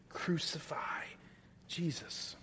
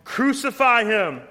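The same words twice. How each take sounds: First: Whispered, soft and hushed; chilling whisper. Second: High, loud furious shout; mob shout. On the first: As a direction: breathe it out like a horrified secret. Quiet echo of crowd's cry. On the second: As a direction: roar it like the crowd gone wild. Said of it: "they shouted out all the more". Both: Acted.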